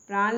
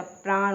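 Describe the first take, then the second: First: प्राण ending in plain n, praan; wrong pronunciation. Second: प्राण ending in retroflex ṇ, praaṇ; correct pronunciation. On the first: Teacher showing the mistake, प्राण ended with plain n. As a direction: close प्राण on an ordinary n. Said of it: "प्राण नहीं होता". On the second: Teacher correcting learners, प्राण ended with retroflex ṇ. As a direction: curl back the final n of प्राण. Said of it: "प्राण होता है". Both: Shown as a demonstration.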